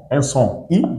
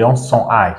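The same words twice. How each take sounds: First: I said as French "i", like "ee"; short I sound. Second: I said "eye"; English long I. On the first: Teacher contrasting two sounds for learners, I said "ee". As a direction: pronounce I as the vowel in "seat". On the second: Teacher contrasting two sounds for learners, I said "eye". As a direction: pronounce I as the vowel in "site". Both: Shown as a demonstration. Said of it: "on a eu des sons".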